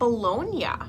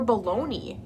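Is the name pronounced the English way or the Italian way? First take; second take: Italian; English. First: The name is pronounced the Italian way. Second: The name is pronounced the English way.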